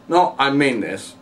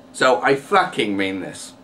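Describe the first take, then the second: First: Said in the usual way. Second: "fucking" hit as the emphasis word; emphasis on swear word. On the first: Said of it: "It has no buzz to it". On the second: Shown as a demonstration. Showing how swearing adds emphasis, "fucking" stressed. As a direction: lean on "fucking" to give it buzz. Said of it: "you use swear words more days to add emphasis".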